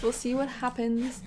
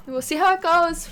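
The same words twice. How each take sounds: First: Said in the usual way. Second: Louder and higher, eager; a loud excited we'll see. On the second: Real, not acted. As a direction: call it out with anticipation. Rising excitement over the game.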